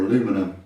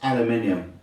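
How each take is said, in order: First: The word is said the American way. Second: The word is said the British way.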